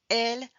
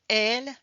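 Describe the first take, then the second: The two takes are said the same way.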